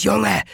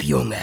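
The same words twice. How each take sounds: First: Junge laut und hoch gerufen; lauter Ruf. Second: Junge gedämpft und fallend; gedämpfter Ruf. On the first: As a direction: Junge scharf herausgeschrien. Garrick schreit Riley an. (Garrick brüllt Riley an) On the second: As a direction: Junge knapp und gedrückt, fast leise. Garrick drängt, noch gedämpft. (Garrick treibt Riley halblaut an) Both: A narrator's reading.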